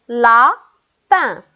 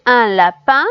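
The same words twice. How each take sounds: First: "lapin" loud, broken into a stretched la, then pin; split into syllables. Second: Said in the usual way. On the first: Shown as a demonstration. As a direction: pause clearly between the two syllables of "lapin". (« lapin » fort, découpé en syllabes : la… pin) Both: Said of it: "dans la première syllabe".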